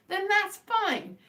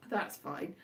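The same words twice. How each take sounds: First: Drawn out high and slow, genuinely accepting; sincere acceptance. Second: Dry, dropped low and quiet; sarcastic. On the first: Telling viewers their taste is fine, slow and sincere. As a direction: let it go graciously, stretched out. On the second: Brushing off a viewer's comment, flat sarcastic mutter. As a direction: mutter it as if you don't mean it. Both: Real, not acted. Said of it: "that sounded very sarcastic".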